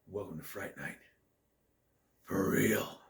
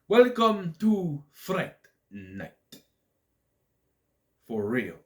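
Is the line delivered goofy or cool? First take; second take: cool; goofy. First: It is said in a cool, restrained way. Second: It is said in a goofy, exaggerated way.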